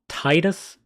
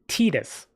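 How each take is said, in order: First: The first syllable sounds like the word 'tide'. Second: The first syllable does not sound like 'tide'. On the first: The name contains the word 'tide'. The speaker calls it right. "It literally puts tide in his name" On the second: This is how the games say it. The speaker calls it wrong. "in the Dissidia games, they pronounce it Titus"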